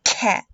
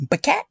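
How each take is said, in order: First: Said in the usual way. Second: "B cat" with a "buh" stuck before "cat", higher, questioning; wrong added sound. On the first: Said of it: "When you say cat". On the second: Shown as a demonstration. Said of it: "there's no b in the beginning".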